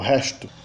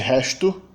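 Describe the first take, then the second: First: It is said in a Portugal accent. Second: It is said in a Northeast Brazilian accent. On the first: "Em Portugal" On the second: "No Nordeste"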